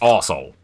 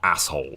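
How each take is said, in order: First: The first part is pronounced 'arse'. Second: The first part is pronounced 'ass'. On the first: The speaker calls it right. "Like it's arsehole" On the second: The speaker calls it wrong. "not asshole"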